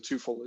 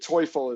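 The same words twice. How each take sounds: First: The name is said with Americanized sounds. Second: The name is said with its original German sounds. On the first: This is how the name is pronounced now. "they changed it at some point a long time ago, and so Teufel is the way it's pronounced" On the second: This is how the name was originally pronounced. "the real pronunciation"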